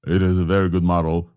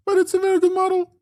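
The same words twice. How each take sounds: First: Lower-pitched voice. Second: Sudden squeaky falsetto; high voice. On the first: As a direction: drop your voice down. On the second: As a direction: flip up into a tiny high voice. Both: Shown as a demonstration. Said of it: "in the high and the low voice together".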